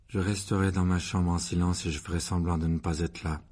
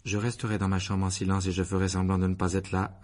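First: Low, sombre, resigned answer; gloomy. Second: Toneless, resigned recitation; monotone. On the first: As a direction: recite it darkly, with no lift. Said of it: "répondit sombrement Harry". (réponse sombre et résignée) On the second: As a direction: recite it without any tune. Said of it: "répondit Harry d'une voix monocorde". (voix monocorde, sans expression) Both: A narrator's reading.

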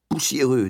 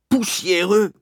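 First: Said in the usual way. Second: "Poussiéreux?" yelled much higher and louder; outraged yell. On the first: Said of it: "dis-je". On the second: A narrator's reading. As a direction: hurl "Poussiéreux?" back in disbelief. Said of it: "hurla-t-il". ("Poussiéreux?" hurlé, indigné)

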